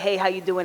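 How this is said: It is said as a quick, casual greeting.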